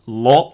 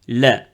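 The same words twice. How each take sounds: First: The l is heavy and deep. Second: The l is light and thin. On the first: "Des fois, elle est grave" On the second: "Des fois, elle est amincie"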